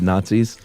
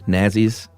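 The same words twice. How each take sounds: First: It uses the ordinary modern pronunciation. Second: It uses an old-fashioned pronunciation.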